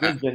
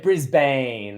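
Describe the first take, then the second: First: It is said the way Australians say it. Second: It is said the way Americans say it. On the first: The speaker calls it right. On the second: The speaker calls it wrong.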